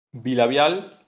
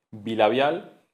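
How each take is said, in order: Both takes have the same delivery.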